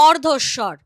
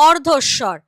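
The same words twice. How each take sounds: The two takes are said the same way.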